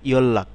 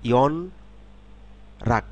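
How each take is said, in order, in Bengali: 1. একটি শব্দ হিসেবে বলা হয়, ডাবল L-এর মতো। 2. আলাদা আলাদা অক্ষরে বলা হয়, প্রথমে N তারপর R। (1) "শব্দে যখন পড়ব তখন হবে" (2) "এটি যদি আলাদাভাবে ব- আমরা পড়ি"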